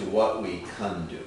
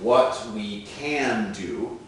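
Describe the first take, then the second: First: The word can has a reduced vowel. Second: The word can has a full vowel.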